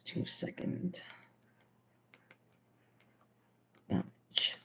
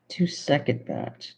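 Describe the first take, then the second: First: Barely voiced, mouthing the words as she writes; breathy self-dictation; whispered to herself. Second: Said in the usual way. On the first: Real, not acted. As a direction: whisper it under your breath while jotting it down. Mouthing recipe words while writing.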